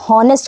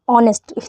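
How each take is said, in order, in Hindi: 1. यह साफ़ h की आवाज़ से शुरू होता है। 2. यह स्वर से शुरू होता है, इसमें h की आवाज़ नहीं है। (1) "सब इसको हॉनेस्ट पढ़ते हैं" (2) "यहाँ पे एच साइलेंट होता है"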